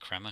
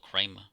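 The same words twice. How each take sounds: First: The first vowel is short, as in 'cram'. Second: The first vowel is long, as in 'cray'. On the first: The speaker calls it right. "I suppose you pronounce it Kramer because it's two M's" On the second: The speaker calls it wrong. "It's not Kramer"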